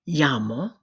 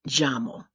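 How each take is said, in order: First: The double L sounds like English Y. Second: The double L sounds like English J. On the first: "sounding like the letter Y" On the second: "sounding like a J"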